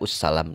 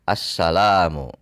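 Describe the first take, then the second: First: The word begins with a u vowel. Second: The word begins with an a vowel. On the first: The speaker calls it wrong. "tidak ussalam" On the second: The speaker calls it right. "tapi assalamu"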